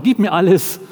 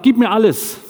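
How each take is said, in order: First: Repeating captain's demand. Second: Loud, high, forceful demand; demanding captain. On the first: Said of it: "Das waren so seine Worte". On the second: Captain demands everything from the missionary, loud and high. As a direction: bark it like a captain claiming everything. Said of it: "der sagt". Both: Retold or imitated.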